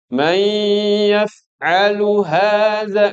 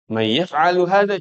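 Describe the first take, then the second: First: It is recited with drawn-out Quranic recitation rules. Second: It is said plainly like ordinary conversation. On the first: This style is meant only for reading the Quran. The speaker calls it wrong. "nggak perlu kan?" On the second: This is ordinary conversational speech. The speaker calls it right.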